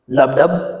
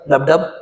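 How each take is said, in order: First: It is said at a normal, steady pace. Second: It is said faster, like a quickened heartbeat.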